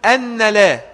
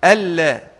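First: "أن لا" as anna la, higher and louder; doubled nun error. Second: "ألا" as alla with a doubled l; no n at all in ألا, just a long lam; idgham. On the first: Retold or imitated. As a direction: lean on a doubled n in أن: an-na la. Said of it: "بتشديد النون". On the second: Shown as a demonstration. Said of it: "فيها إدغام".

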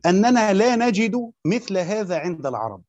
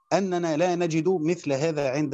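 First: Slow, louder stress on أننا, each word spaced out; slow emphatic. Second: Said in the usual way. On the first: Shown as a demonstration. Teacher stressing the Kufan argument to students, slow and louder. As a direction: lean on أننا and let the phrase unfold slowly. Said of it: "teacher stresses the key quote". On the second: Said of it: "same words repeated plainly".

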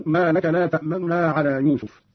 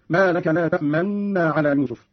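First: تأمن with a faint, fleeting "u" on the first n; hint at "ta'manuna" in تأمن, the vowel barely there; ikhfa. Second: تأمن with held doubled n, lips rounded silently; ishmam. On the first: Teacher demonstrating ikhfa, fleeting hidden vowel inside the n of تأمن. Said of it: "أو الإخفاء هكذا". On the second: Teacher demonstrating ishmam, rounded lips on the long n of تأمن. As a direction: hold the nasal n of تأمن while pursing the lips. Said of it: "الإشمام مع الإشارة بالشفتين". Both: Shown as a demonstration.

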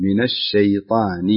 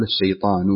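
First: "من الشيطان" slow, the nun linked as "مِنَ الشيطان"; correct nun linking. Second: "الشيطان" with the nun of "من" dropped; the wrong way, nun swallowed before "الشيطان"; wrong form. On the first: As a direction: join "من" smoothly into "الشيطان". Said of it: "انتبه للنون يا صديق". (وصل النون في "من الشيطان" ببطء) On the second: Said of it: "لا تقول". (نطق خاطئ بإسقاط النون) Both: Shown as a demonstration.

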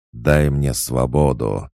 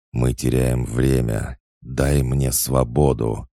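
First: Slow, louder growled demand; distant demonic demand. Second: Slow, growled demand for freedom; growling inner voice. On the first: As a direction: call out from beyond the flames. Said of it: "донёсся до меня голос". (медленный громкий голос из-за пелены огня) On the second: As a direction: growl it like a demon inside his head. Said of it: "Рычащий голос в моей голове". (медленный рычащий голос демона) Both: A narrator's reading.

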